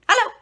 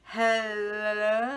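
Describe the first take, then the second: First: It is said fast. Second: It is said slowly.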